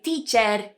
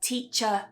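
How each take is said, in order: First: The final syllable has a full, strong er vowel. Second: The final syllable has a soft, weak schwa vowel. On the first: The speaker calls it wrong. "many Spanish speakers may say teacher, computer, and they would add an er sound" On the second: The speaker calls it right. "we would have a schwa here ... it's a lot more relaxed and it's a lot softer"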